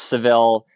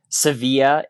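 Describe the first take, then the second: First: The name is said with an English pronunciation. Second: The name is said with a Spanish pronunciation. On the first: "it's Seville in English" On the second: "if you were saying it as the locals say"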